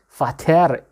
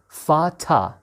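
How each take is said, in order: First: The word ends in a clear 'er' sound. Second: The word ends in an open 'a' vowel. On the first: "Fater is also correct" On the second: "when a word ends with er... we call it a"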